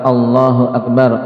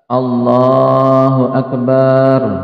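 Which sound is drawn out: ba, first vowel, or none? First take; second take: none; ba. First: No vowel is drawn out long. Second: The vowel after b is drawn out long. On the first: It states that God is the greatest. The speaker calls it right. "adalah khabar Allahu Akbar" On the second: The word turns into a plural meaning drums. The speaker calls it wrong. "ketika memanjangkan ba"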